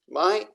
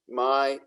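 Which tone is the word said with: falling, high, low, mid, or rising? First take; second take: high; mid. First: The pitch stays high. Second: The pitch stays level in the middle.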